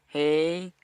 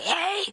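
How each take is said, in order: First: It is said softly and calmly. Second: It is said loudly and angrily.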